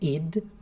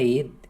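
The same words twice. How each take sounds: First: The vowel is a short 'i' sound. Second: The vowel is an open 'e' sound. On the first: The speaker calls it right. "é id" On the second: The speaker calls it wrong. "veja que não é id"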